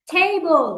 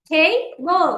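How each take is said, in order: First: Said in the usual way. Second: "table" in two separate beats, টে, then বল; split into syllables. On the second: Shown as a demonstration. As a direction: pause between the syllables of "table". ("Table" দুই ভাগে ভেঙে উচ্চারণ) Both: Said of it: "আমরা দুই ভাগে উচ্চারণ করতে পারছি".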